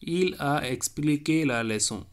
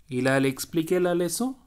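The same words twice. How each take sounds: First: Said in the usual way. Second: Il a expliqué la leçon with leçon lifted into a question; rising question tune. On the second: Shown as a demonstration. Teacher showing a question by intonation, rising on leçon. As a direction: let the voice climb on leçon to ask. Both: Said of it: "the intonation alone will change".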